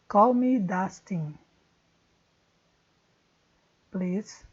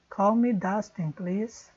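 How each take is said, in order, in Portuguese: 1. Há uma pausa antes de please. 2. Please está ligado à frase sem pausa.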